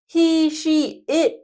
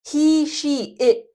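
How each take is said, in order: The two takes are said the same way.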